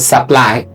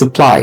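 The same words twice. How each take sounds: First: The first vowel is full and clear. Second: The first vowel is soft and reduced. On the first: The speaker calls it wrong. "it's not supply" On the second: The speaker calls it right. "It's just supply. It's soft"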